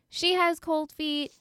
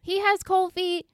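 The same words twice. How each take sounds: First: Slow delivery with "She" picked out high; stress on SHE. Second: "He" pitched high as the contrasted word; stress on HE. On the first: Co-host blaming both halves of a couple, "She" stressed. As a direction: lean on "She" as the answering contrast. Contrasts her with him. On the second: Co-host blaming both halves of a couple, "He" stressed. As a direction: lean hard on "He" to single him out. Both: Real, not acted.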